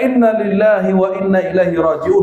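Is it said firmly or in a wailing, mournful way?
firmly. It is said firmly and plainly.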